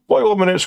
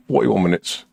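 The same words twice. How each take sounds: First: Higher, louder exasperated repeat; mock dismay. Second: Said in the usual way. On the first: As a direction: sound mock-shocked at the time.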